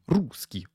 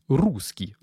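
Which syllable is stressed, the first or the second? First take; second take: first; first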